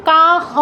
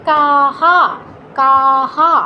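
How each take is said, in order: First: "কা হ" with long aa, then h with the inherent short vowel; incorrect visarga echo. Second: "কাহা" with long aa repeated after a full h; visarga echoing aa. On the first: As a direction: say "কা হ" without repeating the aa after h. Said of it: "উচ্চারণ কা হ হবে না". ("কা হ", হ-এর সাথে আকার ছাড়া) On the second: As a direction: draw out "কাহা", both syllables on open aa. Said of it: "হ এর সাথেও ওই কারটা যুক্ত করতে হবে". ("কাহা", হ-এর সাথেও আকার, টেনে) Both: Shown as a demonstration.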